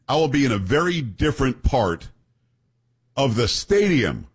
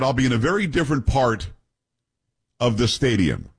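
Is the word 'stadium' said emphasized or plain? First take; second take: emphasized; plain. First: The word stadium is strongly emphasized. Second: The word stadium gets no special emphasis.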